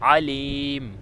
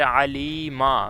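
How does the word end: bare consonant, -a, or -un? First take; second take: bare consonant; -a. First: The word ends on a bare m sound. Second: The word ends with an -a sound. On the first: This is the form used when stopping. "इसका वक़फ़ हम करेंगे अलीम" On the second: This is the full form without stopping. "मीम के ऊपर ज़बर है"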